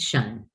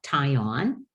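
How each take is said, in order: First: The suffix is said as one syllable, shun. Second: The suffix is said as two syllables, tie-on. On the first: The speaker calls it right. "it's shun" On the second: The speaker calls it wrong. "it's not tie on"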